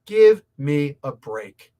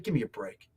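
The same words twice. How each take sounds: First: Louder and slow, leaning on "Give"; exasperated give me a break. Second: Dropped low and soft, almost to himself; muttered give me a break. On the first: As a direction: spell out the exasperation slowly and firmly. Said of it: "like, give me a break". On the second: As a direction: mutter it under your breath first. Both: Real, not acted.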